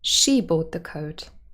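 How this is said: The stress falls on the word she. It was this person and not another. "We could even move the stress to she"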